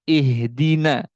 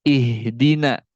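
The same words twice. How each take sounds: The two takes are said the same way.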